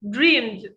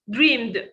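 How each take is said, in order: First: The ending is only a short d sound. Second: The same.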